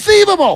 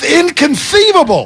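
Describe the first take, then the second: First: It is said at a noticeably higher pitch. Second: It is said at a lower, normal pitch. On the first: The speaker calls it right. "a little higher pitch gets you a five there" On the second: The speaker calls it wrong. "You got to say it with a lisp if you're going to do it right"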